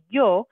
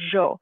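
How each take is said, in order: First: The word begins with a soft y sound. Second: The word begins with a soft zh sound. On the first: "with the y sound" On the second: "a softer kind of zh sound"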